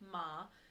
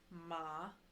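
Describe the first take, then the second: First: The pitch rises from mid to high. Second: The pitch dips low, then rises. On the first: The word means numb. "your second tone, which is your rising tone" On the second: The word means horse. "it goes down and then back up"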